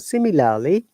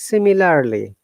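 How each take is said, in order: First: The r sound is silent. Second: The r sound is pronounced. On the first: "In British English, remember R is silent here" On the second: "but in American English"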